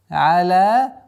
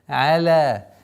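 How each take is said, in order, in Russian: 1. Гласная и Л звучат мягко и легко. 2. Гласная и Л звучат мягко и легко.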